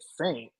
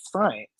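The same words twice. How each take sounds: First: Said in the usual way. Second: Baffled "sent" pronounced "sunt"; imitating mispronunciation. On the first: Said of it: "I realized she meant sent". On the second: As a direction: say "sent" with an uh vowel, rhyming with "hunt". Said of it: "to understand what she said".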